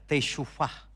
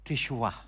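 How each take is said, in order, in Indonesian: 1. Kata ini diucapkan dengan bunyi v di tengah. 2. Kata ini diucapkan tanpa bunyi v di tengah. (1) "teshuvah dalam dialek modernnya" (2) "dalam teks Ibrani dipakai kata teshuah"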